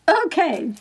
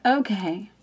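First: Higher, exasperated okay; giving in. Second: Said in the usual way. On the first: Retold or imitated. Finally giving in to the voice's request, reluctant. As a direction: give up with a raised, reluctant okay. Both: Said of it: "I finally give it up".

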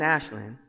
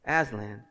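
First: "Aslan" with a sh sound, like Ashland; mispronounced name. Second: "Aslan" with a z sound, AZ-lin; corrected name. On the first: Preacher fumbling the lion's name, "Aslan" said as ASH-land. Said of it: "gonna get his name wrong". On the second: Preacher correcting the lion's name, "Aslan" said as AZ-lin. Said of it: "I said it right". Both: Real, not acted.

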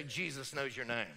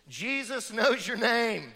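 First: Said in the usual way. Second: Jesus knows your name, slow and louder, leaning on knows; slow, loud stress on knows; emphatic pulpit declaration. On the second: Shown as a demonstration. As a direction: proclaim it to the room. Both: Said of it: "Turn to the person next to you and say".

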